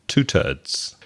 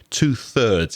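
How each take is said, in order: First: Thirds is said with a plain t sound. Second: Thirds is said with a soft th sound. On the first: "when we use the Irish pronunciation of third" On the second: "is the way I pronounce it"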